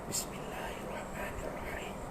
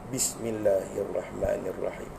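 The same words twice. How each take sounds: First: It is whispered. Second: It is spoken aloud, every letter articulated.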